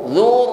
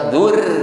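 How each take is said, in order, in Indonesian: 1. Bunyi R di akhir terdengar tebal dan berat. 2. Bunyi R di akhir terdengar tipis dan ringan. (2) "bukan dzur"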